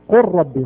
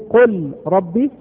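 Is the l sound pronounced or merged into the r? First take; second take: merged; pronounced. First: The l merges into a doubled r sound. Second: The l sound is pronounced before the r. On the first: The speaker calls it right. "قر ما في لام" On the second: The speaker calls it wrong. "هل نقول قل ربي؟"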